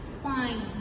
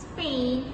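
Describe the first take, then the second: First: The vowel sounds like 'eye' in time. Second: The vowel sounds like 'ay' in day. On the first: The speaker calls it wrong. "she says spine" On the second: The speaker calls it right. "Instead of saying Spain"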